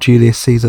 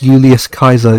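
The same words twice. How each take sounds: First: The c is a soft s-like sound. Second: The c is a hard k sound. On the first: This is the common way people say it. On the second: This is the original Roman way.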